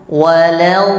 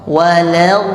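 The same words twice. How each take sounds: The two takes are said the same way.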